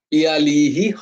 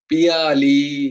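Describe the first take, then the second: First: The name ends with an added breathy 'hi' syllable. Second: The name ends plainly, with no added breathy syllable. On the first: The speaker calls it wrong. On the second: The speaker calls it right.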